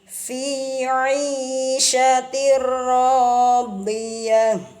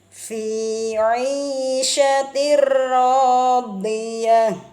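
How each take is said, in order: The two takes are said the same way.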